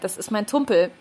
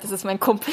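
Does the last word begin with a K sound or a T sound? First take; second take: T sound; K sound. First: The last word begins with a T sound. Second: The last word begins with a K sound. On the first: This is how it was said as a child. The speaker calls it wrong. "ich habe K und T vertauscht" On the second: This is the intended, standard form. The speaker calls it right.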